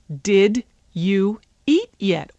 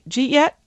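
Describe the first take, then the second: First: Every word is pronounced fully and separately. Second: 'Did you eat' runs together as 'jeet'. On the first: "the way it's written"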